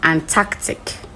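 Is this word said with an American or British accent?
British. It is said in a British-style accent. "with the British and Australian, they will just go for"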